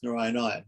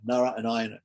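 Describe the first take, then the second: First: Said in the usual way. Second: Nara and Ayana as two separate words; split into two words. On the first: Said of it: "Narayana is two words". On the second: Shown as a demonstration. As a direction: divide Narayana into Nara, then Ayana. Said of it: "and then another two words".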